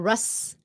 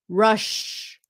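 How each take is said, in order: First: The word ends with a plain S sound. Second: The word ends with an SH sound. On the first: The speaker calls it wrong. "Chứ không phải là Russ" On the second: The speaker calls it right. "S H sound"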